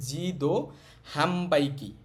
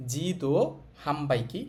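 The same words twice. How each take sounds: The two takes are said the same way.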